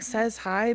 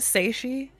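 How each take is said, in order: First: It is said like two words, 'says hi'. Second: It is said as one word ending in 'shee'. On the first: The speaker calls it wrong. "I've been saying says hi" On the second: The speaker calls it right. "Is it Seishi?"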